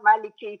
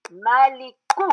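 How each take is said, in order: First: "Maliki" said quickly with a "kee" ending; wrong ending KI. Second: "Maliku" slow, with a stressed "koo" at the end; corrected ending KU. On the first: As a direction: end "Maliki" on ee, the mistaken form. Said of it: "It's not Maliki here". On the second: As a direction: spell out "Maliku" slowly, landing on oo. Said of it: "it's Maliku". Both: Shown as a demonstration.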